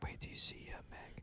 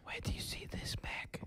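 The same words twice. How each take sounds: First: Hushed whisper right in your ear. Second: Breathy whisper right in the ear. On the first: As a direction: breathe it softly like a secret. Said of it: "that Andrew Yang whisper song". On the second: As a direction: whisper it close and secret. Whisper song bit, unvoiced. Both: Acted.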